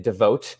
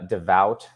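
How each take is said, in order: First: The vowel is said with a Canadian-sounding quality. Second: The vowel is said in a standard way. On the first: The speaker calls it wrong. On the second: The speaker calls it right.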